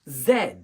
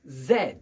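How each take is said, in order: First: The letter is pronounced zed. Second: The letter is pronounced zed.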